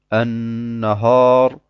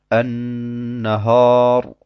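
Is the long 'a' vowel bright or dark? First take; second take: dark; dark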